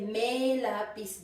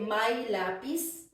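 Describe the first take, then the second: First: The first word has the vowel of 'may'. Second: The first word has the vowel of 'my'. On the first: This is how people usually say it. The speaker calls it right. "Usually people would say may lapis doon" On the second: This is the reading pronunciation. The speaker calls it wrong. "you wouldn't say my lapis"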